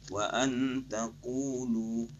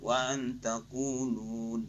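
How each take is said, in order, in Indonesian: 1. Kata terakhir berakhir dengan vokal, tanpa n. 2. Kata terakhir berakhir dengan bunyi n yang ditambahkan. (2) "jangan wa antaqulun"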